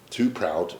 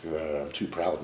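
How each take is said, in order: First: Too proud said louder, with weight on "Too"; emphatic repeat. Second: Said in the usual way. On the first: Real, not acted. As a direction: hammer home "Too proud" as a defiant echo. Repeats his pride defiantly.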